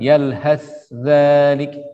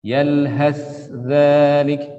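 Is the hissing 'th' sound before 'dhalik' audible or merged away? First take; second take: audible; audible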